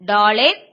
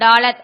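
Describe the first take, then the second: First: The second syllable has a long 'e' vowel. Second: The second syllable has a short 'a' vowel. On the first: This is the form printed in Tamil texts. "டா லே இத்" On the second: This is how it is usually said. "ஆனா நம்ம டாலத் அப்படி சொல்லுவோம்"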